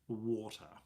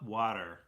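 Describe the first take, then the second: First: The word is said without an American accent. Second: The word is said with an American accent.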